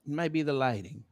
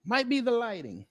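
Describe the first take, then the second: First: Quiet. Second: Higher. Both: Shown as a demonstration.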